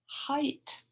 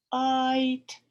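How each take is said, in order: First: Said in the usual way. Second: Loud height. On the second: Shown as a demonstration.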